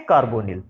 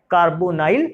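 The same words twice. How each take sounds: First: कार्बोनिल with an "ee" or short i in the last syllable; -nil ending. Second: कार्बोनाइल with an "eye" vowel in the last syllable; -nile ending. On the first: (कार्बोनिल को "निल" ध्वनि पर खत्म करें) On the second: (कार्बोनाइल को "नाइल" ध्वनि पर खत्म करें) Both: Shown as a demonstration. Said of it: "इसको क्या बोल सकते हैं".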